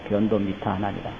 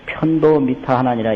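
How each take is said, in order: First: The first word begins with a soft 'b' sound. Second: The first word begins with an aspirated 'p' sound. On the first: The speaker calls it right. "불교에서는 변, 변으로 많이 읽어요" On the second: The speaker calls it wrong. "이래 아니고"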